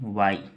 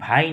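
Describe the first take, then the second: First: The word begins with a 'w' sound. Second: The word begins with a breathy 'bh' sound. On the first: The speaker calls it right. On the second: The speaker calls it wrong. "लेकिन भाई नहीं"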